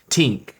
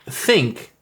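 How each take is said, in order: First: It starts with a hard t sound. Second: It starts with a soft th sound.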